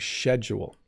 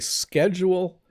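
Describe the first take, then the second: First: It uses the older, less common pronunciation. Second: It uses the common Canadian pronunciation. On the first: This is how some older people say it. "some old people still say schedule" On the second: This is how most Canadians say it. "in Canada, we say schedule"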